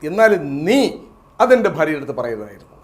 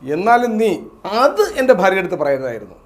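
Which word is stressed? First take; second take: നീ; അത്. First: The word നീ carries the strongest emphasis. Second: The word അത് carries the strongest emphasis. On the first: It would be fine if someone else had said it. "നീ അല്ല, മറ്റാരെങ്കിലും പറഞ്ഞേ കുഴപ്പമില്ല" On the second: The fault lies in saying that particular thing. "ആ അത് എന്ന വാക്കിലാണ് നമ്മളവിടെ ഊന്നൽ നൽകിയത്"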